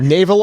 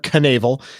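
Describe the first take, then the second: First: The word starts with an N sound. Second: The word starts with a K sound. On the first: "it's either navel or canavel" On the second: "it's either navel or canavel"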